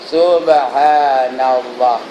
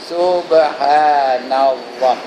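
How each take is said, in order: No difference in how they are said.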